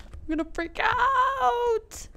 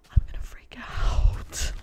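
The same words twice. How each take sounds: First: High, slow squeal of excitement; stretched, high-pitched outburst; freaking out. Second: Slow, hushed, voiceless build-up; strained, breath-heavy excitement; about to freak out. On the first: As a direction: wail it out, overcome with excitement. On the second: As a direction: stretch it out, barely holding it in. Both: Real, not acted.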